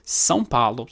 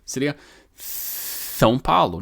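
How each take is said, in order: First: Said in the usual way. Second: São Paulo with a lisp, s as th. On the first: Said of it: "Como você falaria São Paulo". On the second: Shown as a demonstration. Teacher demonstrating a lisp on São Paulo. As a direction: say São Paulo lisping, tongue between the teeth. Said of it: "se você tivesse língua presa".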